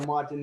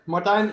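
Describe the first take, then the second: First: The name is said with an English pronunciation. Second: The name is said with a Dutch pronunciation. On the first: "is all right" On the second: "in Dutch"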